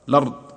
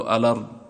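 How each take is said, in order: First: The word begins directly with the 'l' sound. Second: The word begins with an 'a' vowel before 'l'. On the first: The connecting hamza is dropped when starting the word. "أو نترك همزة الوصل لا حاجة لنا، اللام متحرك هنا" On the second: The connecting hamza is kept when starting the word. "هل نأتي بهمزة الوصل فنقول"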